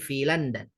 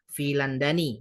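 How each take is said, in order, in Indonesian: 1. Kata itu berakhir dengan konsonan, tanpa vokal akhir. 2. Kata itu berakhir dengan vokal 'i' yang ditambahkan. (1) "tapi filandan" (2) "nggak bisa dibaca filandani"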